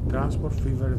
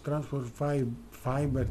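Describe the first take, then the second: First: The second word is said like 'fever'. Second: The second word is said like 'fiber'. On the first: The speaker calls it right. "Τώρα το γράψα σωστά" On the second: The speaker calls it wrong. "Εγώ το είπα λάθος. Transport Fiber, τι είπα πριν"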